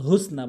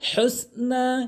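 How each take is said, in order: First: The first h is light and breathy. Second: The first h is deep and raspy from the throat. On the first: The speaker calls it wrong. "ছোট হাইনে উচ্চারণ করা যাবে না, ভুল উচ্চারণ" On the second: The speaker calls it right. "বড় হা হলকের মাঝখান থেকে"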